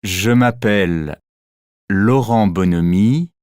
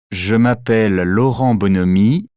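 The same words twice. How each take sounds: First: "Je m'appelle" and "Laurent Bonhomie" as two separate chunks with a pause between; word by word. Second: "Je m'appelle Laurent Bonhomie" run together in one unbroken breath; linked smoothly, one rising sweep to the end; one phonetic word. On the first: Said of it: "On prononce un groupe de mots comme un seul mot". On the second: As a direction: glide "Je m'appelle" straight into "Laurent Bonhomie" with no pause. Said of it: "comme un seul mot". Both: Shown as a demonstration.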